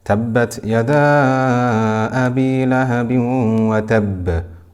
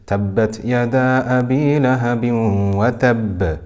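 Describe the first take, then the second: First: The vowel in 'yada' is held for four counts. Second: The vowel in 'yada' is held for two counts.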